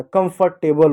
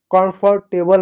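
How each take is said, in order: First: कंफर्टेबल starting with short "kum"; short uh then m in कंफर्टेबल; correct pronunciation. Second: कंफर्टेबल with a full first vowel, "kaan-far-tay-bal"; wrong pronunciation. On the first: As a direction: say कंफर्टेबल as "kum-far-TAY-bal". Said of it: "कंफर्टेबल होता है". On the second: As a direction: open aa at the start of कंफर्टेबल. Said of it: "कंफर्टेबल नहीं होता". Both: Shown as a demonstration.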